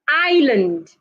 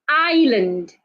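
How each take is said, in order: No difference in how they are said.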